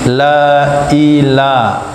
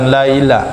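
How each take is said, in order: First: A clear glottal catch separates la and ila. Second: La and ila run together without a catch. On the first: The speaker calls it right. "harus tahqiq la i" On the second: The speaker calls it wrong. "bukan laila"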